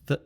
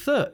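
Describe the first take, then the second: First: Th said without a burst of breath; breathless th. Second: Th pushed out with a burst of breath; explosive th. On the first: Teacher shows learners the breathless th sound, breathless "th". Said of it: "the breathless th sound". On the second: Teacher shows learners the explosive th, "th" with a breath burst. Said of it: "using a burst of breath". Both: Shown as a demonstration.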